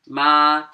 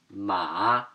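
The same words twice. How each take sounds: First: It is said with the first tone. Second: It is said with the third tone. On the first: It means mom. "First accent" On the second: It means horse. "third tone"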